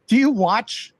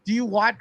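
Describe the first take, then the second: First: Said in the usual way. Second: Laughing nervously through the question; a jittery little laugh before asking. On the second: Real, not acted. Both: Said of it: "it's a nervous laugh I have".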